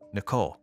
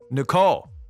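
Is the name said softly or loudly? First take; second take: softly; loudly. First: The name is said softly. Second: The name is said louder.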